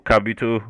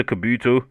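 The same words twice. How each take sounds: First: "Kabuto" as KAB-yoo-toh; alternate pronunciation. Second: "Kabuto" as kuh-BOO-toh; alternate pronunciation. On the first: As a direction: say "Kabuto" stressed on KAB, with a y-glide before oo. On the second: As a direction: say "Kabuto" with a short first syllable and stressed BOO. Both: Shown as a demonstration. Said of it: "whatever way you wanna pronounce Kabuto".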